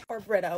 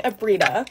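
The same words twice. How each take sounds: First: "Brita" with a short i, "BRIT-a"; corrected pronunciation. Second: "Brita" with a long ee, "BREE-da"; alternative pronunciation. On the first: Vlogger correcting her brand name, second pronunciation. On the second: Vlogger trying a brand name, mispronounced. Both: Shown as a demonstration. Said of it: "I pronounce stuff wrong all the time".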